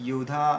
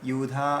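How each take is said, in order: The two takes are said the same way.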